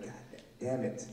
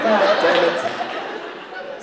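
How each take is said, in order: First: Soft, stunned, deflated curse; stunned god damn. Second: Loud exasperated curse under the breath; frustrated god damn. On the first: Seeing her face at last, quiet stunned curse. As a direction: let it fall out quietly, shocked. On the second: Trying to see the girl, loud frustrated curse. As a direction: blurt it out, frustrated. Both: Retold or imitated.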